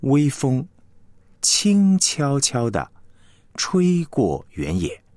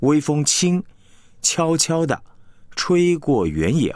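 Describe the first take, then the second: First: Pause between phrases. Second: Wrong pause placement. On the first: Teacher showing where the pauses fall, slow and deliberate. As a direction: clear pauses after 微风 and after 轻悄悄地, 轻悄悄地 slow. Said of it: "这句话就有所停连". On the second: Teacher demonstrating the odd, wrongly broken line. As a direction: break after 微风轻 so 悄悄地 stands alone, odd rhythm. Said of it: "有点奇怪了". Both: Shown as a demonstration.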